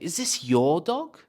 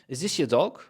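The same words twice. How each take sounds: First: The word 'your' is strong and stressed. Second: The word 'your' is weak and unstressed. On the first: "So I really want to stress your" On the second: "I could be asking"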